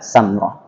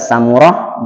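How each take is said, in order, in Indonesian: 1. Tidak terdengar vokal di antara m dan r. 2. Terdengar ada vokal di antara m dan r. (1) "boleh dibaca Samroh" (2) "Boleh dibaca Samurah"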